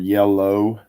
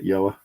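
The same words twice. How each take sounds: First: The word has a standard English pronunciation. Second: The word has a regional, nonstandard pronunciation. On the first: This is how other people say it. The speaker calls it right. "as some of you might call it" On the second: This is the speaker's own way of saying it. The speaker calls it wrong. "that's how I say it"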